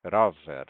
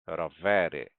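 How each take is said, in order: First: "Rower" loud, stressed on the first syllable ro. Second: "Rowery" with stress moved to the middle syllable we. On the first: Teacher contrasting singular with plural, stress on ro in "Rower". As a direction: hit ro hard in "Rower", falling after it. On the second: Teacher showing the plural shifts stress, onto we in "Rowery". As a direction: lean on we in "Rowery", falling after it. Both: Shown as a demonstration. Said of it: "Mesma coisa".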